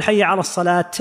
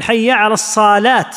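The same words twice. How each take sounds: First: "الصلاة" closed with an audible t, "as-salaat"; ending on taa. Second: "الصلاة" as long "as-saaalaat" with final t; stretched saad. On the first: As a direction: release a final t on "الصلاة", saad unstretched. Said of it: "بالتاء". (الوقف على «الصلاة» بالتاء) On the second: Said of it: "فإذا مد الصاد". (مدّ الصاد مع التاء: الصالات) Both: Shown as a demonstration.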